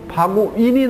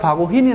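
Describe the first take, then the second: First: There is no h sound before the final syllable. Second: An h sound comes before the final syllable. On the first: The speaker calls it wrong. "바구인이 낫습니까?" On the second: The speaker calls it right. "저는 바구흰이 더 낫는데요. 그래서 여기다 H가 들어가는 거예요"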